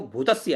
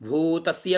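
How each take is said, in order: First: भूतस्य with the first u cut short; short-vowel mispronunciation of भूतस्य; wrong short vowel. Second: भूतस्य with the first oo held long; slow long first syllable in भूतस्य; correct long vowel. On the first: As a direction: hurry through the भू of भूतस्य as bhu. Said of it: "नहीं". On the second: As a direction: stretch the भू of भूतस्य. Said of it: "दीर्घ अक्षरों को ऋस्व अक्षरों के समान न बोले". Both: Shown as a demonstration.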